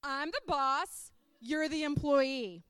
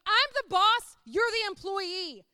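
First: Slow, deliberate imitation of a boss; boss asserting rank. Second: Loud, high, booming declaration of authority; Jesus as the boss. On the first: Boss to reporter quoting the handbook, slow and firm. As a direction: spell out the rank word by word, slowly. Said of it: "And he was like". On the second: Acted. Preacher voicing the boss of our lives, loud and commanding. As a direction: preach it out forcefully as the one in charge. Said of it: "Jesus is up there going".

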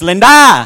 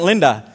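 First: "Linda" with a loud, lifted final syllable; broken-English "Linda", stressed on the last syllable; end-stressed name. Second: Said in the usual way. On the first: Shown as a demonstration. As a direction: throw all the weight onto the end of "Linda". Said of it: "They emphasize the end". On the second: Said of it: "Her name isn't Linda".

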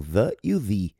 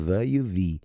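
First: "the" first as "thuh", then as "thee"; two pronunciations of the. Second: "the" said "thuh" then "thee" again; two pronunciations of the. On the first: Teacher contrasts both sounds of "the" for students. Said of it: "Tem duas pronúncias". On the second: Teacher repeats both sounds of "the" for students. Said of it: "Assim como o A e o N". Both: Shown as a demonstration.

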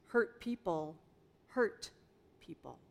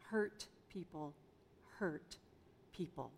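First: Each word set apart with pauses; quoted saying. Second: Repeated softer, sinking at the end; soft echo. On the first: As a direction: lay the phrase down word by word. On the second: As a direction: let the saying settle in a hushed echo. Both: Shown as a demonstration. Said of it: "You've probably heard the phrase".

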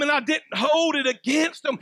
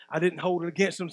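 First: Forceful declaration. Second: Quiet restatement. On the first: Preacher voicing Jesus to the congregation, shouted. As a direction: preach it out strong, rising to a shout. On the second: Preacher repeating Jesus' forgiveness to the church, hushed. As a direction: drop much lower and softer, almost hushed. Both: Acted.

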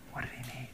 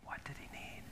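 First: Quiet plain voice, no whisper; soft spoken. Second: Hushed breathy question; whisper. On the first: Pastor repeats the question softly, voiced. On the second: Pastor drops to a whisper before the congregation. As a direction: whisper it to draw them in. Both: Shown as a demonstration. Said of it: "talk like this the rest".

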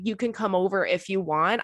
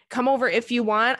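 First: Said in the usual way. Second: Mock echo of a guy's half-hearted invitation; mocking the guy's offer. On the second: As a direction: parrot his lazy invite with a rising lilt. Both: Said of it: "if a guy has ever presented to me".

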